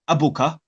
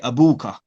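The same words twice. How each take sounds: First: The middle vowel is short. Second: The middle vowel is long. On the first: The speaker calls it wrong. "We don't say abuka" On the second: The speaker calls it right. "we say abuka"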